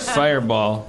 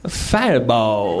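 First: It is said flatly, without much energy. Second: It is said with a lot of gusto.

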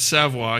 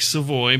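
First: The name is said with a Cajun pronunciation. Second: The name is said as its spelling suggests. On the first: The speaker calls it right. "but I'm Cajun, so it's Savoy" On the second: The speaker calls it wrong. "It's spelled like Savoy"

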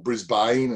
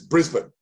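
First: The name is drawn out and stretched. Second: The name is said quick and short. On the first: The speaker calls it wrong. "as a lot of people want to say" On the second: The speaker calls it right. "Just quick, short, tight. Don't stretch it"

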